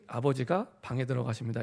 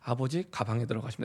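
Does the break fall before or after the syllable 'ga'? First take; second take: after; before. First: The break falls after 'abeojiga', before 'bang'. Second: The break falls after 'abeoji', before 'gabang'.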